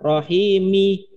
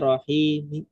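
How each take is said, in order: First: The final vowel is fully pronounced. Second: The final vowel is only faintly heard. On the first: The speaker calls it wrong. "kalau sepenuh kan rohimi, mi-nya itu penuh" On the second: The speaker calls it right. "sebagian kedengaran harokatnya pelan aja"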